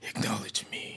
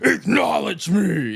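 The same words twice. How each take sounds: First: It is said in a timid, weak voice. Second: It is said in a commanding, forceful voice. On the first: The speaker calls it wrong. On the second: The speaker calls it right.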